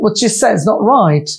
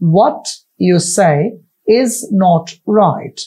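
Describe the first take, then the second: First: The sentence is spoken fast with reduced words. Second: The sentence is spoken slowly, word by word. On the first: "আমি দ্রুত বলেছি" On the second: "আমি বলেছি"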